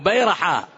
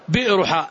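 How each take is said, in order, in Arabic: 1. يُنطق كلمةً واحدةً متصلة. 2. يُنطق ككلمتين: 'well' و'ha'. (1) "لكن المكان اسمه بيرحاء" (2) "حرفوا فقالوا هناك بئر اسمها ايش؟"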